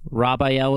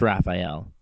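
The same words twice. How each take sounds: First: RAPHAEL said as "Rob-eye-el"; punning pronunciation. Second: Said in the usual way. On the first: Shown as a demonstration. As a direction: swap the first syllable of RAPHAEL for Rob. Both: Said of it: "Paulson's Raphael".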